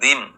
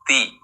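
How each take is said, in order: First: The syllable begins with a voiced d sound. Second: The syllable begins with an unvoiced t sound. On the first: The speaker calls it wrong. "bukan dim" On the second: The speaker calls it right. "tapi ti"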